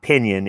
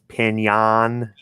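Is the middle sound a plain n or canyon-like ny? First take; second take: plain n; canyon-like ny. First: The middle sound is a plain n. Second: The middle sound is ny, like canyon. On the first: The speaker calls it wrong. "it's not pinion" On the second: The speaker calls it right. "It's pinion, like canyon"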